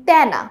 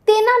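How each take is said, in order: First: "তেনা" as tæ-na, with an open æ; open æ vowel. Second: "তেনা" as te-na, with a closed e; closed e vowel. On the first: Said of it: "আমরা বলি তেনা". ("তেনা"-তে বিবৃত অ্যা, ত্যা-না) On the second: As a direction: say "তেনা" with the e of "hey", the form not used. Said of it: "তেনা না বলে". ("তেনা"-তে সংবৃত এ, তে-না) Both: Shown as a demonstration.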